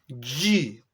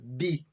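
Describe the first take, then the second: First: The d is palatal, sounding like 'dj'. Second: The d is made with the tongue tip. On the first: "D J I. Di. Tem um J dentro do D. E é palatal" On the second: "Falou da ponta da língua, di"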